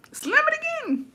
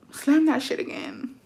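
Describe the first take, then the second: First: Very high squeaky threat; escalated retold dare. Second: Slow, higher-pitched dare; retold warning. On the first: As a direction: replay the warning way up high, without shouting. Acted threat, escalated repeat. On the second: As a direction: replay a controlled threat, drawing it out. Acted threat, first take.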